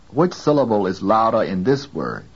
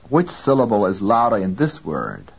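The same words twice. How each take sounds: The two takes are said the same way.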